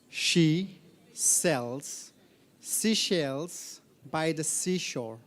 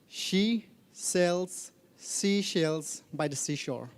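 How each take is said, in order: First: It is said more slowly. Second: It is said at normal speed.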